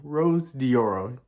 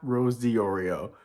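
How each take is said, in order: First: The surname ends with the sound 'oro'. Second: The surname ends with the sound 'orio'. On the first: The speaker calls it right. "So it's Rose Dioro" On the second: The speaker calls it wrong. "not Rose Diorio"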